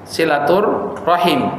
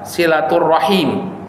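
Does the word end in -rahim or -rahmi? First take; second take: rahim; rahim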